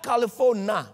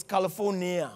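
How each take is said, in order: First: "California" said as "Cali-fo-na"; mock-botched "California", ending in a plain "na"; wrong pronunciation. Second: "California" said in full as "Cali-for-ni-a"; correct pronunciation. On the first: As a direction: say "California" without its final i, ending "-fona". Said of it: "it's California". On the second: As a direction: sound the i near the end of "California". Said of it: "It's not California". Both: Shown as a demonstration.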